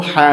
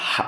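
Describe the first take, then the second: First: হা as a light, unpressed "h"; mistaken soft ha. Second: হা squeezed from mid-throat; correct strong ha. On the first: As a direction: say হা loosely, like an English "ha". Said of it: "হা বলে ফেলতে পারে". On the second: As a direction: say হা as a tight pharyngeal Arabic "ha". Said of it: "হা না বলে হা বলে ফেলতে পারে". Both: Shown as a demonstration.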